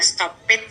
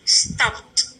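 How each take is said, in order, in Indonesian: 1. Akhirannya dibaca sebagai suku kata tambahan. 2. Akhirannya dibaca sebagai bunyi t. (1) "stop itu tidak boleh dibaca stoped" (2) "tapi dibaca stopped gitu. Jadi seperti berakhir dengan T saja"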